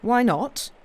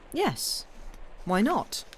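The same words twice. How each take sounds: First: Slightly mocking. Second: A lightly capricious, coaxing push, rising on why not; a loved woman's whim, half teasing; slight petulance. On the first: Officer echoing his lover's request, slightly mocking. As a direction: echo her words back, higher and louder, with light mockery. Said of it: "with a slightly mocking accent". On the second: Woman coaxing her lover for a tale, lightly petulant. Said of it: "These words came with a slight petulance". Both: A narrator's reading.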